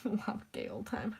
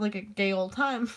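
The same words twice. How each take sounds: First: Laughing repeat. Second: Said in the usual way. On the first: Shown as a demonstration. Repeating her own joke to the stream, quietly laughing. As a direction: chuckle it quietly to yourself.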